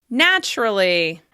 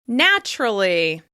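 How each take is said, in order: Both takes have the same delivery.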